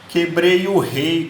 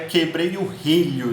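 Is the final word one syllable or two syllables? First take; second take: one syllable; two syllables. First: The last word is reduced to one syllable. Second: The last word keeps both syllables. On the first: It imitates rural backcountry speech. "como diz o Matuto" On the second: It is the standard form of the word. "Na verdade é quebrei o relho"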